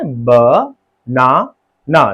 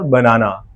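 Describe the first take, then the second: First: ब, ना, ना as three separate drawn-out beats; slowly part ब, ना, ना with clear gaps; syllable by syllable. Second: Said in the usual way. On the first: Shown as a demonstration. Teacher counting three openings, ब, ना, ना split by syllable. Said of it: "तीन बार पर बनाना". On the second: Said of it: "तीन syllable".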